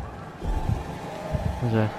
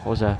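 First: Hushed, slow, breathy question; whispered. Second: Said in the usual way. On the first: Real, not acted. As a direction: whisper it, scared to be heard. Whispered repeat. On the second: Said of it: "repeated differently".

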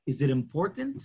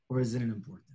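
First: Rising tune on "important", asked as a real question; questioning rise. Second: "important" dropped low and soft, with a falling tune; low pointed fall. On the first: Rabbi asking the congregant whether it matters, rising question. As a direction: lift "important" at the end like a question. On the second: Rabbi pressing the congregant on what truly matters, low knowing fall. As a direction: answer your own question low and knowing, falling on "important". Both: Shown as a demonstration.

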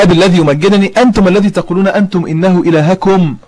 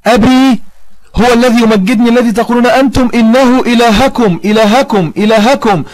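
First: Said in the usual way. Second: Higher, insistent quote hammering "إلهكم" with each repeat; emphatic recitation. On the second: Retold or imitated. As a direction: drive home "إلهكم", repeated firmly at a raised pitch. Verse repeated to drive point home.

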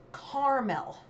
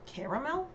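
First: Caramel as CAR-mel, slow and falling; own pronunciation. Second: CARAMEL in three syllables, rising like a question; questioned pronunciation. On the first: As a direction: say caramel as a firm, drawn-out KAR-mel. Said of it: "I pronounce it caramel". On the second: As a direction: say Caramel as CARE-uh-mel, questioningly. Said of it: "How is the following word actually pronounced?". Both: Shown as a demonstration.

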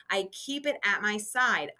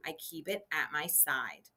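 First: Said in the usual way. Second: Softer, lower repeat; soft reminder. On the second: Shown as a demonstration. Teacher repeats the lunchbox rule to kids, softly. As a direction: repeat it gently and quietly. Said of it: "I don't want to hurt anyone".

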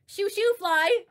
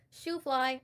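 First: High, loud sing-song "shoo shoo fly"; sing-song mock. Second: Said in the usual way. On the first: Shown as a demonstration. Streamer taunting a rival with a high, loud "shoo shoo fly". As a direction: tease it out in a high chant. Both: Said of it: "Or should I say".

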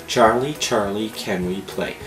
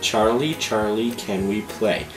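Both takes have the same delivery.

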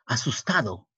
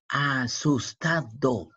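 First: Said in the usual way. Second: "Asustado" drawn out slowly; syllable by syllable. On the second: Shown as a demonstration. Teacher breaking "Asustado" into syllables for the pupil. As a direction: stretch "Asustado" into slow separate syllables.

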